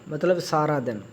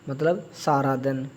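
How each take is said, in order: No difference in how they are said.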